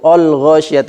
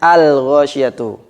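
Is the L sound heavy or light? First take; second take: heavy; light. First: The L is pronounced thick and heavy. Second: The L is pronounced thin and light. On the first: The speaker calls it wrong. "mentebalkan lam ... ini kesalahan" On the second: The speaker calls it right. "harusnya; alnya tetap tipis"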